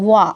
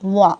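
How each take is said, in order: Both takes have the same delivery.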